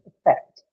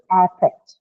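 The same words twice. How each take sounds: First: "affect" as uh-FECT, second syllable stressed; verb pronunciation. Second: "affect" as AF-fect, first syllable stressed; noun pronunciation. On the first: Teacher summing up the verb form, schwa-first "affect". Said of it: "when used as verb, the pronunciation itself changes". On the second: Teacher summing up the noun form, cat-vowel "affect". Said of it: "Hence, when used as a noun". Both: Shown as a demonstration.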